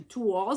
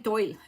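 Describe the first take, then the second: First: It is said like twal, rhyming with wall. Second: It is said like the English word toil. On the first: The speaker calls it right. "It kind of rhymes with wall. And then you say tour" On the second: The speaker calls it wrong. "that may be the English way of saying it. It's definitely not the French way"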